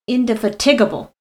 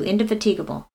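First: The main stress falls on 'tig'. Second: The main stress is not on 'tig'. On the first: The speaker calls it wrong. "putting the emphasis on tig" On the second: The speaker calls it right. "that's how I say it"

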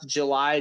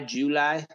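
First: The word is said in a standard accent. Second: The word is said in a Southern accent.

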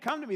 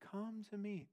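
First: It is said forcefully, with intensity and urgency. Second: It is said softly and casually, without urgency. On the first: It is an urgent command demanding attention. The speaker calls it right. "he's trying to get our attention" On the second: It is a mild, casual invitation. The speaker calls it wrong. "he's not saying like"

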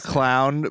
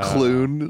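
First: The vowel sounds like 'ow' as in cow. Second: The vowel sounds like 'oo' as in moon. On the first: "He studied to be a clown" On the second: "but he pronounces it a clune"

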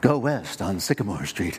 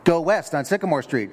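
First: It is said in a soft, sultry voice. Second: It is yelled in an impatient voice.

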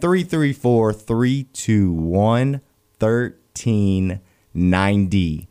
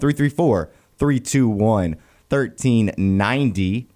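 First: The number is said slowly. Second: The number is said fast.

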